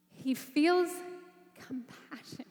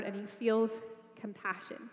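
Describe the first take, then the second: First: Whispered compassion. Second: Said in the usual way. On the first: Shown as a demonstration.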